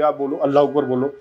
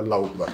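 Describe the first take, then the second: First: A pushy demand to say it live on air; mock forced order. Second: Chanted, softer and lower, said freely; chanted, say it by your own will, gently; willing sincere chant. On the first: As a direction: lightly voice a host forcing the words. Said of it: "मैं कहूँ, "चलो जी, इसी news channel पे live है". (ज़बरदस्ती बुलवाने का हल्का नकली अंदाज़) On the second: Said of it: "आप अपनी मर्जी से सौ बार बोल सकते हैं". (chanted, अपनी मर्ज़ी से, नरम और धीमा) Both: Shown as a demonstration.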